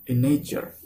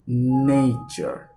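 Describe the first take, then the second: First: Said in the usual way. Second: NATURE with a long, pressed first syllable; stressed first syllable. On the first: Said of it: "don't read in nature". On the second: Shown as a demonstration. Teacher showing students the stressed syllable in "nature", first syllable stretched. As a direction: draw out and push the NA in "nature". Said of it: "You will say it nature".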